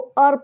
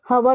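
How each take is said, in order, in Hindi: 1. शब्द सीधे एक स्वर ध्वनि से शुरू होता है। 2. शब्द एक सुनाई देने वाली 'h' ध्वनि से शुरू होता है। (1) "एच साइलेंट है और यहाँ पर भी हम इसको अर पढ़ते हैं" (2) "हवर नहीं रीड करते हैं"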